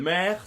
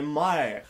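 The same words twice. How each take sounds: First: Said in the usual way. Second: Mère dit « maère »; È diphtongué. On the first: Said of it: "Mère, ça devient mère". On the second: Shown as a demonstration. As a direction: ouvrir mère par un A. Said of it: "ça devient mère". (« mère » à la québécoise)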